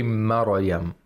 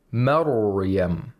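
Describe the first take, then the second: First: "Maryam" with a bounced r, like "Ma-ra-yam"; mispronounced ra. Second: "Maryam" with thick, held r and no vowel after it; correct tajweed. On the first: Reciter shows listeners what the sheikh doesn't say, bounced ra. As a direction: slip a short vowel after the r in "Maryam". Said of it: "He doesn't say Maryam". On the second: Reciter models the sheikh's correct reading, thick flowing ra. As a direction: let the r in "Maryam" flow into the y. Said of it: "he pronounces all of them correctly". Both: Shown as a demonstration.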